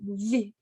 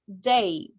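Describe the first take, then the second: First: The sound is a soft buzzing friction. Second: The sound is a hard stop like d. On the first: The speaker calls it right. "it's really pronounced like this" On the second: The speaker calls it wrong. "I used to pronounce it as uh, day"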